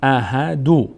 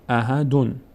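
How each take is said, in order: First: The word ends on a short u vowel. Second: The word ends with an added n sound. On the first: Only the letter's own vowel is pronounced. "یکی که ضمه خود داره است احدو" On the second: The dropped nun of the tanween is pronounced. "یک نون اضافه میکنیم میشه احدن"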